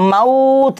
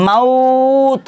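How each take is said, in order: First: Said in the usual way. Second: মাউত with the আউ drawn out at the stop; pausal stretch. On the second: Shown as a demonstration. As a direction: lengthen মাউত before stopping. (আরিজ ওয়াকফি দিয়ে মাউত টেনে থামা) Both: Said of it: "আরিজ ওয়াকফি এসে যাবে".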